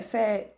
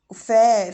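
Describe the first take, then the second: First: Said in the usual way. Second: Fé called out much louder; stressed syllable. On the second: Shown as a demonstration. Mother isolating the syllable fé for her son, loud. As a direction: punch fé loud and clear. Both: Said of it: "tem som de quê?".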